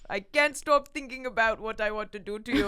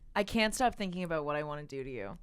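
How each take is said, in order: First: It is said in an angry Russian accent. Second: It is read in a plain, normal voice.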